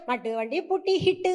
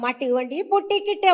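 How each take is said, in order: First: The last word starts with an h sound. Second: The last word starts with a k sound. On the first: The speaker calls it wrong. "அப்படிம்பேன் நானு" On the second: The speaker calls it right. "அப்படின்னா"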